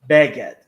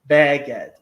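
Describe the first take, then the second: Both takes have the same delivery.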